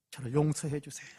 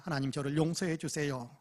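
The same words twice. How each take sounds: First: Pleading for forgiveness. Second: Quiet pleading. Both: Retold or imitated. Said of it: "울부짖으며 기도했답니다".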